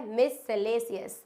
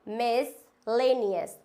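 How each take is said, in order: First: "मिससेलेसियस" slowly as mis-se-lay-si-as; wrong pronunciation. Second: "मिसलेनियस" slowly as mis-LAY-ni-as; correct pronunciation. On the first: Teacher shows a mistake, "मिससेलेसियस" as slow mis-se-lay-si-as. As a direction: say "मिससेलेसियस" with an extra "se". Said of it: "ये बिल्कुल गलत होता है". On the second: Teacher corrects learners, "मिसलेनियस" as slow mis-lay-ni-as. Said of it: "हम पढ़ेंगे मिसलेनियस". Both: Shown as a demonstration.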